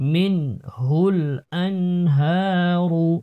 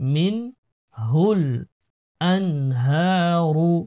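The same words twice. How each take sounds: Both takes have the same delivery.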